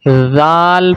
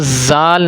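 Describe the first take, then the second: First: The first sound is soft, tongue between teeth. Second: The first sound is a sharp whistling hiss. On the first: The speaker calls it right. "बल्कि ज़ाल पढ़ना है" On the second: The speaker calls it wrong. "सीटी की आवाज़ नहीं निकालनी, यानी इसको ज़ाल नहीं पढ़ना"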